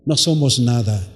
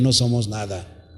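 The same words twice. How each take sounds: First: Said in the usual way. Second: Hushed reminder to the congregation that we are nothing; quiet. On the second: Shown as a demonstration. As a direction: lower and much softer, a solemn hush. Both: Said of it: "Escúcheme bien".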